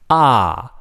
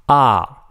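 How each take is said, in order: No difference in how they are said.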